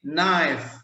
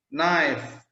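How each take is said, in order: Both takes have the same delivery.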